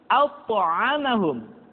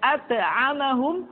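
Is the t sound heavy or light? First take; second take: heavy; light. First: The t sound is heavy and thick. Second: The t sound is light and thin. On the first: The speaker calls it right. "terdengar menebal suaranya" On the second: The speaker calls it wrong. "tidak at'amahum"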